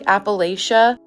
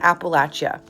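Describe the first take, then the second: First: The ending does not sound like 'apple at ya'. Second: The ending sounds like 'apple at ya'. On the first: The speaker calls it wrong. "I used to pronounce it like Appalachia" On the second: The speaker calls it right. "pronounced like when you're saying throw an Appalachia"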